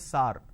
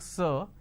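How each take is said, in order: First: The word is said with a South Indian vowel. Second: The word is said with the standard vowel. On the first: The speaker calls it wrong. "if you go down south ... they say sar. So this is a pronunciation mistake" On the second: The speaker calls it right. "This is how we are supposed to pronounce"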